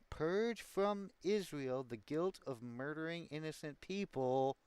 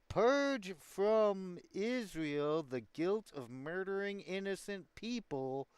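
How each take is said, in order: First: It is read at a faster pace. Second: It is read at a slower pace.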